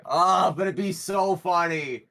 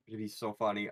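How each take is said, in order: First: Gleeful pleading. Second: Low, soft murmur to yourself; quiet musing. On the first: Player torn over the paid gig, excitedly pleading. Player tempted, then exclaims the same. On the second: Player weighing the paid gig, quietly tempted. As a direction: let the tempting thought slip out softly. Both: Real, not acted.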